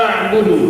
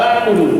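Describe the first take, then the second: The two takes are said the same way.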